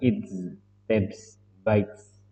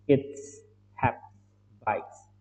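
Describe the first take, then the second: First: The final s is a heavy, voiced z. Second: The final s is a light, voiceless s. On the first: The speaker calls it wrong. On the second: The speaker calls it right. "Jadi ringan, S-nya S yang ringan ya"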